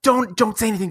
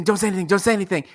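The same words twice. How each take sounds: First: Lightly voiced anxious sister pleading; a touch of a worried mom's urgent plea; hushed plea. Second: Same plea rattled off fast; a mock-frantic rapid plea; rapid repeat. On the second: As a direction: gabble the repeats in a nervous rush. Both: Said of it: "my sister would be like".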